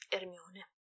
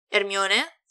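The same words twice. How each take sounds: First: Said in the usual way. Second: Hermione lifted at the end as a question; puzzled rise on Hermione. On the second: A narrator's reading. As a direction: say Hermione louder, with rising doubt. Asks into the phone.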